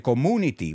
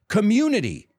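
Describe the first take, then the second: First: The u is said as a plain oo sound. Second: The u is said as a yoo sound. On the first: The speaker calls it wrong. "a lot of times people say community, but no" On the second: The speaker calls it right. "the long U sounds like a U"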